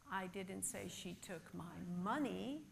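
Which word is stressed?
money. The stress falls on the word money. She may have taken something else. "but possibly she took something else"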